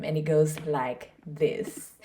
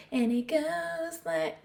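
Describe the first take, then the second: First: Said in the usual way. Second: Sudden high, slow, squeaky voice; goofy high-pitched intro. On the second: Pretend. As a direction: jump way up high and drag it out playfully. Repeats intro in odd voice.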